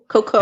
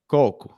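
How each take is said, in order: First: The stress is on the second syllable. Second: The stress is on the first syllable. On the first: It means poop. "coco has the emphasis on the second syllable" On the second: It means coconut. "is this emphasis on the first syllable"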